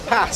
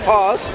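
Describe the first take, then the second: First: It is said in a northern English accent. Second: It is said in a southern English accent. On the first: "Why do northerners go and say the same word?" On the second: "Why do southerners go and say"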